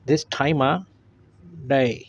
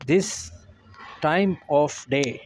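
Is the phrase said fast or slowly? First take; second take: fast; slowly. First: The phrase is said fast with 'of' reduced. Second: The phrase is said slowly with full 'of'. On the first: "real fast English में हम pronounce करेंगे" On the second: "slow English"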